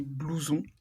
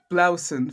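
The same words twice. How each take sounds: First: "blouson" said bloo-ZON with a nasal French ending; correct French pronunciation. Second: "blouson" said BLAU-sen, first syllable like now; Americanized mispronunciation. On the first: Shown as a demonstration. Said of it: "there would actually be blouson". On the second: Retold or imitated. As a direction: quote the American mistake in "blouson". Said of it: "anything like how you said it".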